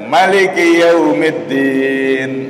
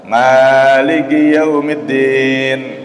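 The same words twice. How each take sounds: First: The first vowel of Maliki is said short. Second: The first vowel of Maliki is drawn out long. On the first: "beliau membaca pendek" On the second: "pakai qiraah panjang"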